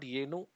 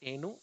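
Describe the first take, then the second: First: The word starts with a y glide. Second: The word starts directly with a vowel. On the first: The speaker calls it wrong. "So it's not Yenu, although some people pronounce it like that" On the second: The speaker calls it right. "It's Enu"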